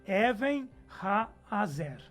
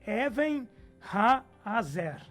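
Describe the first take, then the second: The two takes are said the same way.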